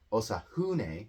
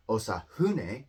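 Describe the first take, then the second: No difference in how they are said.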